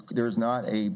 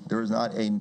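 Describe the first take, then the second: No difference in how they are said.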